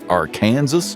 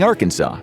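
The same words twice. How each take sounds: First: The name is said in a more English-sounding way. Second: The name is said in the French-derived way. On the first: "tried to make it sound more English" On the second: "everyone was already saying Arkansas"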